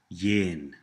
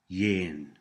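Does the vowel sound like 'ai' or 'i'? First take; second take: i; i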